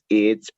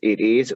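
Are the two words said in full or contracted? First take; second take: contracted; full. First: The words merge into one short syllable. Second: Both words are said separately and in full. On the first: "con contracción" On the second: "sin contracción"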